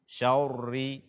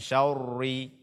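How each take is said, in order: No difference in how they are said.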